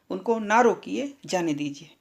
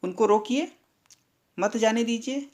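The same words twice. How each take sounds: First: "उनको ना रोकिए" at normal pitch, "जाने दीजिए" falling away; break after रोकिए. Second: उनको रोकिए rising, a long pause, then मत जाने दीजिए; "उनको रोकिए", beat, "मत जाने दीजिए" as one phrase; pause after रोकिए. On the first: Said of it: "लेकिन तीसरे वाक्य में". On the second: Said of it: "दूसरे वाक्य में क्या कहा गया है". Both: Shown as a demonstration.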